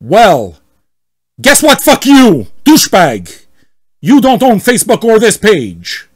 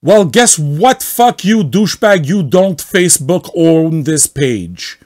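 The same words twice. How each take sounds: First: Loud, much higher shouted insult; hammed-up yell at the admin; angry member shouting at the admin; mock furious yell. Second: Hammed-up yell at the admin; angry member shouting at the admin; mock furious yell. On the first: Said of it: "read as much as possible like him". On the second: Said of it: "I want to get it all right".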